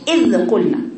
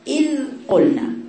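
First: The dh sound is cut off with a bounce. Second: The dh sound is held and prolonged. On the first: The speaker calls it wrong. "وما تقوليش إذ قلنا، لأن أنت برضو عطيت على شكل وقلتها خطأ" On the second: The speaker calls it right. "يعني إزاي طوليتها زمانها؟"

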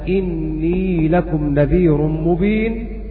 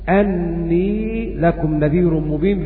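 First: The first word begins with an i vowel. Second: The first word begins with an a vowel. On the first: The clause is reported speech. "بكسر الهمزة" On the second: The clause is governed by an implied preposition. "فتح الهمزة"

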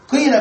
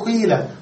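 First: The first vowel is i said with rounded lips. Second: The first vowel is a plain unrounded i. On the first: "بالكسر مع ضم الشفتين فتشم شيئا من الضمة مع الكسر" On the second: "تنقل الكسرة ثم تبدل الواو ياء فتقول قيلة"

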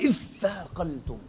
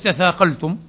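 First: The t is merged into a doubled th sound. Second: The t and th are pronounced as separate sounds. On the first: "اندغام التاء في الثاء" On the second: "ما قالش تثاقلتم"

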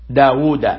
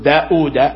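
First: No glottal stop occurs in the middle. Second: A glottal stop occurs in the middle. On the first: The speaker calls it right. "والصواب أنه بدون همس" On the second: The speaker calls it wrong. "ما تقول داود بالهمز"

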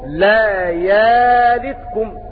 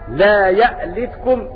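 First: A long vowel replaces the glottal stop. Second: A glottal stop is pronounced after the first syllable. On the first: "بإبدال الهمزة ألف لفتح ما قبلها" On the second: "على مذهبه في التحقيق"

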